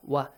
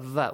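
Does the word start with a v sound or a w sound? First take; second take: w sound; v sound. First: It starts with a rounded w sound. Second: It starts with a buzzing v sound. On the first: The speaker calls it right. "Waw must be pronounced correctly" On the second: The speaker calls it wrong. "Not va, We don't have v in Arabic"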